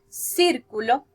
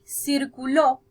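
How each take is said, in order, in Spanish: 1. El acento está en la primera sílaba. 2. El acento está en la última sílaba. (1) "con el acento en la primera parte" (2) "con el acento al final"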